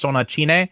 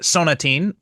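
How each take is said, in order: First: The title is pronounced in Japanese katakana style. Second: The title is pronounced in English style.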